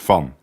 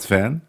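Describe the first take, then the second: First: It is pronounced with a Dutch sound. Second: It is pronounced with an American sound. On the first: The speaker calls it right. "so it's van" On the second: The speaker calls it wrong. "It's not Van, like Van Halen"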